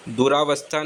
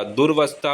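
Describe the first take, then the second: First: दुरावस्था said as "du-raa-vastha"; wrong pronunciation. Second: दुर्वस्था said as "dur-vastha", no vowel after r; correct pronunciation. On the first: Teacher showing the mistaken दुरावस्था, said as "duraavastha". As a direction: put a long raa in दुरावस्था. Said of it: "दुरावस्था नहीं होता". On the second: Teacher correcting to दुर्वस्था, pronounced "durvastha". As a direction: run r straight into v in दुर्वस्था. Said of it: "दुर्वस्था होता है". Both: Shown as a demonstration.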